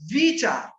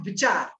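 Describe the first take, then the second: First: The first vowel is long. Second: The first vowel is short. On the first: The speaker calls it right. "बड़ी की मात्रा" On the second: The speaker calls it wrong. "नॉट"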